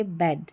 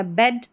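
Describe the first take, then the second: First: बेड said as English "bad", lower and softer; open A vowel. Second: बेड said as English "bed", with E; short E vowel. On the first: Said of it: "और ए जब आ जाता है". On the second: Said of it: "ई जब आ जाता है". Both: Shown as a demonstration.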